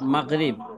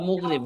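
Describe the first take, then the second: First: The first vowel is an open 'a' sound. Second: The first vowel is a rounded 'u' sound. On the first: The speaker calls it wrong. "মাগরিবটা মুগরিব" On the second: The speaker calls it right. "শব্দটা হলো মুগরিব"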